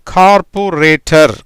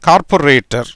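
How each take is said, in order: First: கார்பொரேட்டர் drawn out syllable by syllable; teacher's slow model of கார்பொரேட்டர்; slow sounding-out. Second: Said in the usual way. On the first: Shown as a demonstration. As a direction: say கார்பொரேட்டர் slowly, each part separate. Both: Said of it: "எப்படி வருது?".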